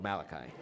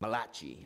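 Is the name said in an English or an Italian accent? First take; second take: English; Italian. First: The name is said in an English accent. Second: The name is said in an Italian accent.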